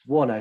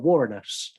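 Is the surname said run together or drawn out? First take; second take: run together; drawn out. First: The surname is said run together, compactly. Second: The surname is said drawn out, with extra syllable. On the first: The speaker calls it right. "smash it together" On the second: The speaker calls it wrong. "I want to call her Warrenos, but it's not"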